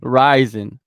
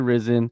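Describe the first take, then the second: First: The first syllable sounds like 'rise'. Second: The first syllable sounds like 'riz'. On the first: The speaker calls it right. "Ryzen is the pr- proper way to pronounce it" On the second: The speaker calls it wrong. "A lot of people say Risen"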